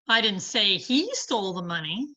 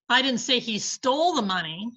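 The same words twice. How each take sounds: First: The stress falls on the word he. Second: The stress falls on the word stole. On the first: Someone else took it. "but somebody did" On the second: He has it but may not have taken it. "but he has the money"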